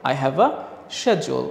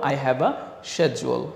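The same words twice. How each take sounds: No difference in how they are said.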